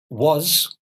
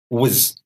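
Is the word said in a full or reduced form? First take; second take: full; reduced. First: The vowel is full and clearly pronounced. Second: The vowel is reduced and weak.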